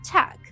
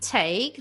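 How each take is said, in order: First: The vowel is a short 'a' sound. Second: The vowel is a long 'ay' sound. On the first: The speaker calls it wrong. "they say tak" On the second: The speaker calls it right. "Instead of saying take"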